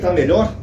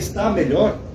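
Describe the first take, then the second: First: The verb is shortened to one syllable. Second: The verb is said with both syllables. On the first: This is how most people actually speak. "A maioria que eu conheço fala tá" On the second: Almost nobody says it this way in daily life. "Quase ninguém usa assim no dia a dia"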